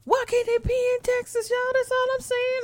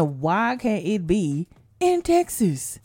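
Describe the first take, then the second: First: Very high comic whine; high-pitched whining. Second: Slow, drawn-out lament; slow complaint. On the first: Host wanting a Texas lottery winner, high mock whine. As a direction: squeal the complaint like a pleading child. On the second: Host complaining about lottery winners, slow plaintive question. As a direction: stretch out the question in protest. First, slower take of complaint. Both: Acted.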